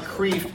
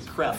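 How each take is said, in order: First: The vowel is a long 'ee' sound. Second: The vowel is a short 'e' sound. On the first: This is how the spelling suggests it is read. The speaker calls it wrong. "I know it looks like Kreeft" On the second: This is how the name's owner says it. The speaker calls it right. "he pronounces it Kreft"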